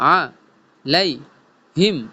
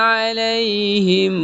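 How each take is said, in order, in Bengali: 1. প্রতিটি অংশ আলাদাভাবে বলা হয়, মাঝখানে বিরতি দিয়ে। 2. অংশগুলো কোনো বিরতি ছাড়াই একসাথে বলা হয়। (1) "ভাঙ্গা ভাঙ্গা শুরু বলবো" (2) "একসাথে বলবো"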